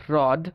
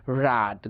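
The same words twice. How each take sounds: First: British রড with rounded O; British pronunciation. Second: American রাড (rod) as RAHD; American pronunciation. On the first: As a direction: say রড with lips rounded. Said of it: "ব্রিটিশরা যেসব জায়গায় অ". (রড-এ অ, British উচ্চারণ) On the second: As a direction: open AH in রাড. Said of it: "উচ্চারণ করে আ". (রাড-এ আ, American উচ্চারণ) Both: Shown as a demonstration.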